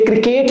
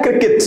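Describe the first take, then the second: First: क्रिकेट with a long "ay" ending, kri-ket; rejected pronunciation. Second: क्रिकेट with two short "i" sounds, krik-it; short, light second vowel in क्रिकेट; corrected pronunciation. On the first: Retold or imitated. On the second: Shown as a demonstration. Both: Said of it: "ये क्रिकेट नहीं है".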